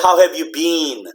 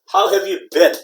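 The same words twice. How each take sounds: First: The vowel in been is long. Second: The vowel in been is short. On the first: The speaker calls it wrong. "You don't say" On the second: The speaker calls it right. "it's a short sound"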